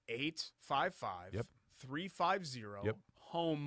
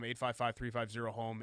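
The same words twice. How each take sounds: First: The number is read slowly. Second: The number is read quickly.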